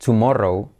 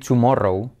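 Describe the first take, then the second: The two takes are said the same way.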